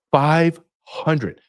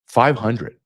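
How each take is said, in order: First: Five pitched much higher, falling hard on hundred; emphatic repeat. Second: Said in the usual way. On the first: Real, not acted. Repeating the number so the audience gets it, stressed high.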